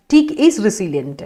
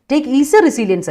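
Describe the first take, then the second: First: "teak" with a long ee as in the tree, and "resilient" ending in -ent, said very slowly; corrected sentence. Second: "Take" said like the verb take, with "resilience" as the noun; misreading quoted. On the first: Teacher giving the student the corrected sentence, very slow. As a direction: spell out the fix: "teak", long ee, then "resilient", drawn out. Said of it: "Take is a resilience അല്ല". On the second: Teacher quoting a student's wrong sentence before correcting it, slow. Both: Shown as a demonstration.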